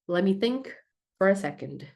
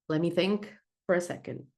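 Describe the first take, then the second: The two takes are said the same way.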